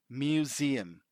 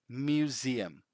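The two takes are said the same way.

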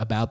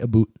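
First: The last syllable rhymes with 'out'. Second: The last syllable sounds like 'boot'. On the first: "instead of about" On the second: "they say aboot"

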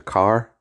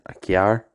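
First: 'Car' is said in a plain Ballymoney accent. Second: 'Car' is said with a Mid-Ulster 'kyar' sound.

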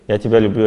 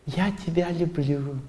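First: It is said automatically and mechanically. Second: It is said with showy, surface emotion.

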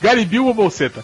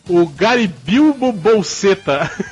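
First: It is said very quickly. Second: It is said at a normal pace.

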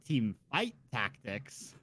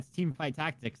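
First: Each word is carefully and clearly enunciated. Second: The words are run together casually. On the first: This is the unusual way one person said it. "I'm sorry I enunciated" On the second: This is how most people say it. "Everybody I've heard is like"

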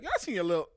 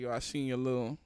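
First: It is said in a high voice. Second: It is said in a low voice.

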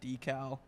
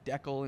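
First: The word is said with a non-Canadian pronunciation. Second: The word is said with a Canadian pronunciation. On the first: This is how most other people say it. "instead of decal" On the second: This is how Canadians say it. "Like decal"

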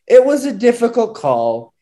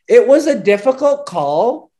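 First: It is read in the speaker's natural voice. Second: It is read in a put-on mocking character voice.

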